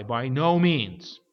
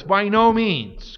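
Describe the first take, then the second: First: Said in the usual way. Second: "no" hit hard, loud and high, slow; emphatic no. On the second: Shown as a demonstration. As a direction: stamp out "By no means" word by word. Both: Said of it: "Greek is emphatic".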